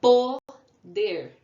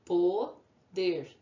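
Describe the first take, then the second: First: Poder called out loud, Po, then der; syllable by syllable. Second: Poder split evenly into Po, then der; syllable by syllable. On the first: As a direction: punch a long Po, pause, then der. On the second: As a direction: say Po, pause, der at normal volume. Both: Shown as a demonstration. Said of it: "Duas sílabas".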